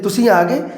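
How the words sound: It is said with a tone of mild surprise. It shows surprise that you have come. "थोड़ा जिहा हैरानी का भाव प्रगट किया है"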